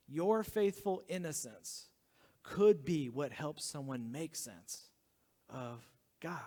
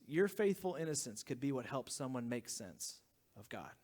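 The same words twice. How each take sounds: First: Slowly spelled out, word by word; slow, deliberate. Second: Said in the usual way. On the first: Shown as a demonstration. Pastor to congregation, slow emphatic repeat. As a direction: lean on each word slowly. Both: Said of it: "it goes like this".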